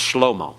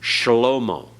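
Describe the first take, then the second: First: No vowel is heard between 'sh' and 'l'. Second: A short vowel is heard after the 'sh' sound. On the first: This is the modern pronunciation. "But in modern Hebrew, it's just shlomo. They don't give that vocal sound at all" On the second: This is the classical pronunciation. "it's supposed to be vocalized in biblical Hebrew"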